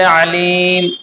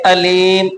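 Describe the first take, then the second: First: It begins with a tight, throaty ain sound. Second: It begins with a plain glottal stop. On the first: The one who knows. The speaker calls it right. "आइन से अलीम" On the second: Painful. The speaker calls it wrong. "अदायगी आइन की ना निकाल करके हमजा पढ़े"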